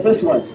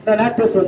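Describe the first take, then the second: First: This pushed down low; stress on this. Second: Not this one with a firm push on not; stress on not. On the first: Magician points out the right orange, landing hard on This. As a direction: land hard on This. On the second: Magician redirects the crowd, pushing on not. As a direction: lean into not, then let this one fall. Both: Shown as a demonstration.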